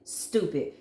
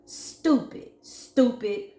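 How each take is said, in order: First: Said in the usual way. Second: High breathy whispered jeer; scornful. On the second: Real, not acted. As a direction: hiss it up high in contempt. Scornful repeated insult.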